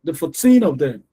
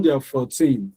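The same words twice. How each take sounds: First: Put-on "fourteen" with the TEEN stressed. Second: "fourteen" with both syllables weighted the same; equal stress. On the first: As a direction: make TEEN the loud part of "fourteen". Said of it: "the teen is louder". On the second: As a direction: give "four" and "teen" in "fourteen" equal sound. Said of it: "they are equal in sound". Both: Shown as a demonstration.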